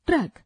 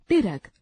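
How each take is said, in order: First: ट्रक with a tight tr cluster in one syllable; correct pronunciation. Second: ट्रक said as "टिरक" with a vowel inside the tr; wrong pronunciation. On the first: Teacher models the correct one-syllable ट्रक. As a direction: say ट्रक short, tr joined. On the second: Teacher demonstrates the wrong form "टिरक". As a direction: split the tr of ट्रक into two syllables. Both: Shown as a demonstration. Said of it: "अशुद्ध उच्चारण, शुद्ध उच्चारण".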